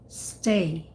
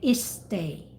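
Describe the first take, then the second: First: The word starts directly with the s sound. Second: A short vowel sound comes before the s. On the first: The speaker calls it right. "You say sh, s, stay" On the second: The speaker calls it wrong. "You don't say is stay"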